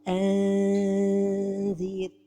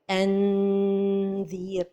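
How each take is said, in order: First: The n is stretched out like a long vowel. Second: The n is fully closed against the palate. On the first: "trop éloigner le bout de la langue du palais supérieur" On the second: "on va toucher le palais avec le bout de la langue"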